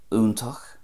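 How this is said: It starts with an oo sound, ending in ach. "Munster, a definite oo sound"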